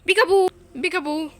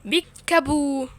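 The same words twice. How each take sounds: First: بيكابو بيكابو called out loud and higher, quick double; loud playful peekaboo before teleporting. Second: بيكابو stretched very slowly and louder; slowly sung-out playful peekaboo; slow drawn peekaboo. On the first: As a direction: shout بيكابو twice like a teasing game. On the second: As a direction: draw out بيكابو like a teasing reveal. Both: Pretend. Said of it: "اقول لكم بيكابو".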